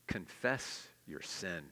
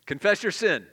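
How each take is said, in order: First: Slow, low and soft, each word laid down. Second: Louder and higher, driven home; loud repeat. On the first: Preacher stating his third point to the church, slow and soft. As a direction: let it sink in quietly. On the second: Preacher repeating his point to the congregation, loud and emphatic. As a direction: hammer the point. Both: Shown as a demonstration. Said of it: "Number three".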